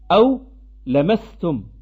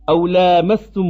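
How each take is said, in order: First: The first a-vowel is kept short. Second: The first a-vowel is held long. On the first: "ils ont prononcé le terme lamastum sans prolongation" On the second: "Nous on récite comme ça"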